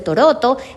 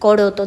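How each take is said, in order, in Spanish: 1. La palabra empieza con un sonido T. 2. La palabra empieza con un sonido K. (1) "la K la cambia por la T" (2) "en vez de decir coroto"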